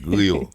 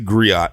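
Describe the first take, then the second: First: The name is said like the word grill. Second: The name is said as two syllables, gree-oh. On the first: The speaker calls it right. "You gotta say it like that" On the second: The speaker calls it wrong. "don't say griot"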